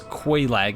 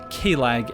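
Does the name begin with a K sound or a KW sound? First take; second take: KW; K. First: The name begins with a KW sound. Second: The name begins with a plain K sound. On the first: This is how most other people say it. "everyone else refers to as Quelaag" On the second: This is the speaker's personal way of saying it. "my pronunciation of Quelaag"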